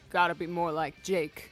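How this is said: It is said in a deliberately low voice.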